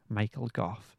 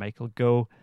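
First: The surname ends with an f sound. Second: The surname ends on a vowel.

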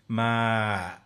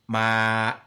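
First: The voice ratchets down creakily. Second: The voice is cut off abruptly. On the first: "creaky voice, ma, where it ratchets down at the end" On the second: "stiff voice, ma, my voice cuts it"

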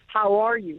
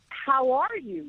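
First: The voice sounds flat and dull. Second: The voice sounds lively and enthusiastic. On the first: "in a dull monotone" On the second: "with enthusiasm"

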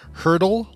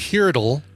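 First: It rhymes with Wordle, like hurdle. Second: It starts like hear and does not rhyme. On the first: "Do you pronounce it Hurdle like Wordle?" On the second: "people like, "Oh, H-E-A-R," but then it doesn't rhyme with Wordle"

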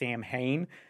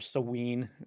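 First: It is pronounced the way it is spelled. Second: It is pronounced unlike its spelling. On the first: The speaker calls it wrong. "It looks like it should be pronounced Samhain" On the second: The speaker calls it right. "But it's really Samhain"

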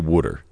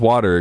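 First: It is said in a Jersey/Philly accent. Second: It is said in a general American accent.

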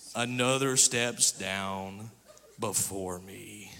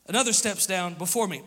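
First: It is read in a mopey, self-pitying tone. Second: It is read in a plain, matter-of-fact tone. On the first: "This dude had Eeyore syndrome. This is how I read it" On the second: "I don't read it that way"

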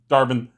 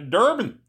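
First: The name is said without a regional accent. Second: The name is said in a Minnesota accent.

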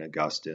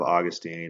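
First: It is said with the scholarly, academic pronunciation. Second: It is said with the everyday, common pronunciation. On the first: "the more scholarly pronunciations of names" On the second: "Instead of Augustine"

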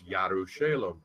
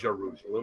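First: The name begins with a Y sound. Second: The name begins with a J sound. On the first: The speaker calls it right. "it's Yerushalem" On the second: The speaker calls it wrong. "Not Jerusalem"

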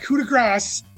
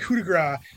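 First: The final s sound of grace is pronounced. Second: The final s sound of grace is silent. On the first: The speaker calls it wrong. "not coup de grace" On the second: The speaker calls it right. "It's always been coup de grace, It's no S. That's silent"

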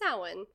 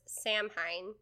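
First: The word is not said as it is spelled. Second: The word is read out letter by letter. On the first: The speaker calls it right. "just know it's pronounced Samhain" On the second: The speaker calls it wrong. "I forever thought it was Samhain"

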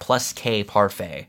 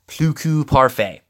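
First: The first word ends with an s sound. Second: The first word has no s sound. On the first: The speaker calls it wrong. "It's not" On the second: The speaker calls it right. "I believe it's"

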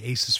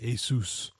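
First: The word ends like the end of Pegasus. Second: The word does not end like Pegasus. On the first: This is the older, mistaken way of saying the name. The speaker calls it wrong. "I used to say Asus for years" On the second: This is the officially intended way of saying the name. The speaker calls it right. "you're supposed to pronounce it Asus"

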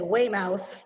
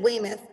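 First: It is said the way outsiders pronounce it. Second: It is said the way locals pronounce it. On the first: The speaker is not from the area. "if you're not from Massachusetts, you say Weymouth" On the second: The speaker is from the area. "bigger one is in Weymouth"

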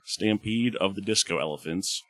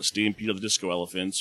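First: It is said slowly. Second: It is said at normal speed.

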